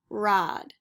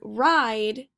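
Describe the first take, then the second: First: The vowel is a plain ah without glide. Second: The vowel glides from ah toward ee. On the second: This is the standard American English form.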